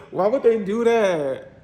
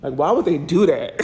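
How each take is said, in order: First: Slowed, higher "Why would they do that?" through a laugh; laughing disbelief. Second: Said in the usual way. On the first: Real, not acted. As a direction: laugh at the ugly counters. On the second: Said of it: "The counters are kinda ugly".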